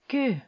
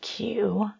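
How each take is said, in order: First: It has a rounded French vowel, not English Q. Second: It sounds like the English letter Q. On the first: The speaker calls it right. "Make like an O with your lips... pronounce the letter E" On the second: The speaker calls it wrong. "No, not Q"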